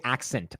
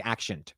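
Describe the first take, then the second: First: "accent" said as "ak-sent". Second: "accent" said as "ak-shent". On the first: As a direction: give "accent" a clear s, no sh. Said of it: "I don't naturally say accent". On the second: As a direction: turn the s of "accent" into sh. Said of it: "if I'm being natural". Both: Shown as a demonstration.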